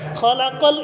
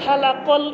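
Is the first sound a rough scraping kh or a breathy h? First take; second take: rough kh; breathy h. First: It begins with a rough scraping kh sound. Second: It begins with a breathy h sound. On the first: It means created. The speaker calls it right. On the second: It means shaved. The speaker calls it wrong.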